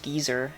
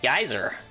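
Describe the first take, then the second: First: It is said with a British pronunciation. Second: It is said with an American pronunciation. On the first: "It's pronounced geezer in, uh, in the U K" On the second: "Geyser in America"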